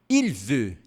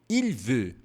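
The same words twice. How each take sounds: Both takes have the same delivery.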